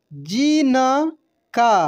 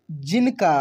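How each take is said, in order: First: जिनका slowly as ji, na, kaa; syllable by syllable. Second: Said in the usual way. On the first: Shown as a demonstration. Teacher reading for learners, जिनका slowly syllable by syllable. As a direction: stretch out each syllable of जिनका. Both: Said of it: "अब direct पढ़ते हैं".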